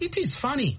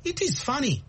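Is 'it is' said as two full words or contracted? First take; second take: full; full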